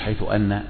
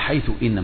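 First: The second word begins with an 'a' vowel. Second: The second word begins with an 'i' vowel. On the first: The speaker calls it wrong. "مش حيث أن" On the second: The speaker calls it right. "يبقى حيث إن مش حيث أن"

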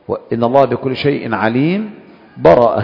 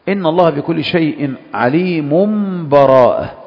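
First: There is a full stop with a breath before براءة. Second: عليم runs straight into براءة with no stop. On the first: The verses are treated as fully separate. "تقف وقف مع أخذ النفس" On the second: The verses are joined in one flow. "الوجه الثالث الوصل"

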